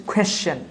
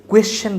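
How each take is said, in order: First: "কোয়েশ্চেন" with a puffed kh onset; aspirated q. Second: "কোয়েশ্চেন" with a plain kw onset; unaspirated q. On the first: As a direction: say "কোয়েশ্চেন" as khweschen. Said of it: "এটাকে আমরা বলবো হচ্ছে". ("কোয়েশ্চেন" শুরুতে খ উচ্চারণ) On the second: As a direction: start "কোয়েশ্চেন" on a dry ক. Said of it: "কোয়েশ্চেন বলবো না". ("কোয়েশ্চেন" শুরুতে সাদা ক) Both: Shown as a demonstration.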